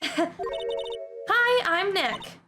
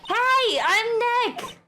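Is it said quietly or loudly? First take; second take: quietly; loudly. First: It is said fairly quietly. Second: It is said loudly.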